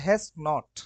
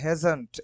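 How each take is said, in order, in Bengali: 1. এটা দুটো আলাদা পূর্ণ শব্দ হিসেবে বলা হয়। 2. এটা একটা ছোট সংকুচিত শব্দ হিসেবে বলা হয়। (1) "এটা মূল হচ্ছে হ্যাজ নট" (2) "তাড়াতাড়ি বলার জন্য হচ্ছে হ্যাজন্ট"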